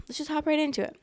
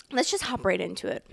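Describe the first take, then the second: First: "Let's just hop right into it" said much higher, playfully lilting; sing-song repeat. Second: Said in the usual way. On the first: Real, not acted. Vlogger repeating herself to start the story, pitched up playfully. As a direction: bounce the repeat up high.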